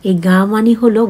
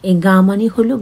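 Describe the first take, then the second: The two takes are said the same way.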